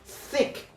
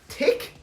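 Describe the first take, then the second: First: The word begins with a soft th sound. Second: The word begins with a hard t sound. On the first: The speaker calls it right. "this is a separate sound. Usually, like as in um, thick" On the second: The speaker calls it wrong. "do not say tick"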